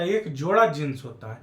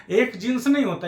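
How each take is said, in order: First: Lower, falling answer leaning on जोड़ा; correcting answer. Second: Raised denial, weight on नहीं; stress on नहीं. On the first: Teacher giving the right count, settled stress on जोड़ा. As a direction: bring it down firmly through जोड़ा. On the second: Teacher rejecting a wrong count, stressing नहीं. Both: Shown as a demonstration.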